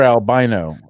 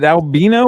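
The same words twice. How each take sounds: First: "Albino" pronounced al-BY-no. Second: "Albino" pronounced al-BEE-no. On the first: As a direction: say "Albino" with an "eye" in the stressed middle. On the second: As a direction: say "Albino" with an "ee" in the stressed middle. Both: Shown as a demonstration. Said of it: "is it Albino or Albino?".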